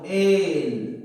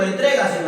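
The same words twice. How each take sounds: First: "Entrégaselo" split as en, tre, ga, se, lo with long gaps; syllable by syllable. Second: Said in the usual way. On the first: Shown as a demonstration. Teacher dividing "Entrégaselo" for the class, syllable by syllable. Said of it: "Sería así, ¿no?". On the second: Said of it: "Por ejemplo".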